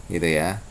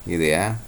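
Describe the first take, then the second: Both takes have the same delivery.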